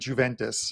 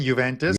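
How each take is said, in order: First: The word begins with a J sound. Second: The word begins with a Y sound. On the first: The speaker calls it wrong. "with the J in there" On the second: The speaker calls it right. "the J is silent"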